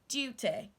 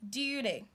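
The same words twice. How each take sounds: First: The middle T is a crisp T. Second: The middle T sounds like a D. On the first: "they say their letter T properly, like saying duty" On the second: "the American will pronounce this word like this"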